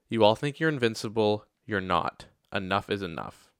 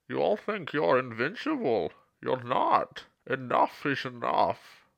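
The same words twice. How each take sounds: First: It is said in a normal voice. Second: It is said in a Bane impression.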